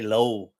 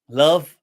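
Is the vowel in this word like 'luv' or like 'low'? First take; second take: low; luv. First: The word has a long 'oh' vowel. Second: The word has a short 'uh' vowel. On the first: "they say low" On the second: "they don't say love"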